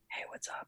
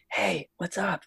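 First: The whisper is airy with no voice tone. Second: The whisper is loud with some voice tone. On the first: A private whisper that is not meant to carry. "whereas if I was whispering, I'd be like" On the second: A whisper that is meant to carry to an audience. "if I'm whispering on stage, I'd be like, ... there's still a little bit of tone in my voice"

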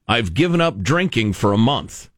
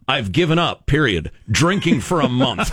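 First: It runs on with no break after 'up'. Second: There is a full stop after 'given up'.

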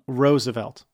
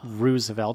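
First: The first syllable sounds like 'rose'. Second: The first syllable sounds like 'roos'. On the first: The speaker calls it right. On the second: The speaker calls it wrong.

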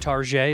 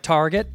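First: The name gets a fancy, French-sounding ending. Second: The name is said in the ordinary way.

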